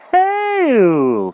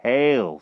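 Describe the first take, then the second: First: Very high, loud, long greeting; overeager knight. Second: Raised, even greeting; composed magician. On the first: King answers magician's greeting, overeager. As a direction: bellow it in a high hearty voice. King bellows his reply. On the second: Magician greets king, composed. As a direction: intone it briskly with composure. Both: A narrator's reading.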